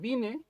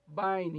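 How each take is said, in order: First: It sounds like the Spanish verb form vine. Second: It sounds like the English name Vine. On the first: The speaker calls it wrong. "por ahí dice el diccionario Vine, o sea, eh, vine, voy, vinieron" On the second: The speaker calls it right. "Se dice diccionario Vine"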